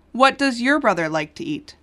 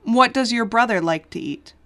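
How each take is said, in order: Both takes have the same delivery.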